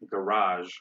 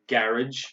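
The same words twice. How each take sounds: First: It is said in an American accent. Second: It is said in a British accent. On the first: "In American is" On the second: "In British"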